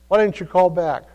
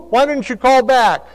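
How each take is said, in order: First: Said in the usual way. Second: High, loud scolding mother voice; a mother calling then chiding her son; scolding mom. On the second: Retold or imitated. Mother scolding son for not answering, high and loud. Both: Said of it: "And you know what she'd say?".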